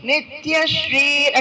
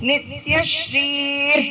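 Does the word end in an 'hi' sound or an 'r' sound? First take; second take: r; r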